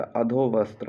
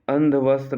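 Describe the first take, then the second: First: "अधोवस्त्र" with adho-, no nasal; correct form shown. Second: "अंधवस्त्र" with a nasal andha-, quickly; wrong form shown. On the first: Teacher correcting students' word, अधोवस्त्र starting with अधो. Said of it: "होता है". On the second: Teacher showing the mistake to avoid, अंधवस्त्र starting with nasal अंध. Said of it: "नहीं होता". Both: Shown as a demonstration.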